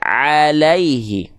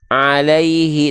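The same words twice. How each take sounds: First: The ain is kept out of the nose, sounding clear. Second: The ain is pushed through the nose, sounding nasal. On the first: The speaker calls it right. "tapi alaihi" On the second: The speaker calls it wrong. "nggak dibaca"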